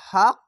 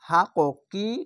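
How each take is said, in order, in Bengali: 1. শব্দটি শেষ হয়েছে একটি ঝাঁকুনি-দেওয়া q স্পর্শ ধ্বনিতে। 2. শব্দটি শেষ হয়েছে একটি শেষের i স্বরধ্বনি দিয়ে। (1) "এখানে কলকলা হবে এরকম" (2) "হাক কি উচ্চারণ হবে না"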